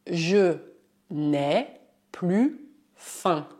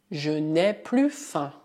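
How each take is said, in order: First: "je n'ai plus faim" broken into slow separate chunks; teacher spelling out "je n'ai plus faim" slowly; slow dictation. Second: Said in the usual way. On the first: Shown as a demonstration. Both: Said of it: "Um outro exemplo".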